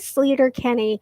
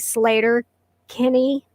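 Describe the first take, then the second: First: The first vowel sounds like 'ee'. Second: The first vowel sounds like 'ay'. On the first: It is read from the spelling without having heard it. The speaker calls it wrong. "I say Sleater Kinney" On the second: It is how the band's name is actually said. The speaker calls it right. "it's really Slater Kinney"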